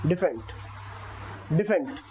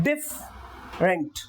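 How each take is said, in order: First: डिफरेंट as dif-ent, no आर; silent r. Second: डिफरेंट slowly with a sounded r; the incorrect way, r pronounced; wrong version. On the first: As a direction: drop the r in डिफरेंट. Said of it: "आर silent". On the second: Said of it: "डिफरेंट नहीं". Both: Shown as a demonstration.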